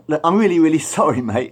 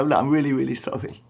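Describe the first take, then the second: First: High, loud panicked sorry; frantic apology. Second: Mildly raised, hushed retelling of the apology; a lighter echo of the sorry; apologising. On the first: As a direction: beg forgiveness fast and loud. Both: Retold or imitated. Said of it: "he really apologised".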